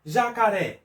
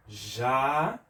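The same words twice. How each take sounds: First: Said in the usual way. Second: JA... CA... RÉ, long pauses between syllables. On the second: Shown as a demonstration. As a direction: split "ja-ca-ré" into three separate beats. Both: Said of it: "Vamos fazer a separação silábica".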